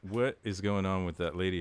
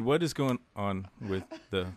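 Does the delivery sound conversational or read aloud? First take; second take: conversational; read aloud. First: It sounds loose, like casual everyday talk. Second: It sounds stiff, like text read aloud. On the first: The speaker is talking naturally. The speaker calls it right. "How about this?" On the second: The speaker is reading from a script. The speaker calls it wrong. "you sound like you're reading. Like, You go"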